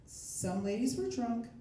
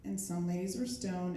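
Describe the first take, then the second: First: Put-on slow, lifted drunk-party energy; like the lively half of the party; high-energy drunk. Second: Mellow, low-energy delivery; like the chilled-out half of the party; low-energy stoned. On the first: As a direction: draw it out with lively tipsy energy. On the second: Acted. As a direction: let the energy drop, as if stoned. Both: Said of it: "energy levels for those two things are very different".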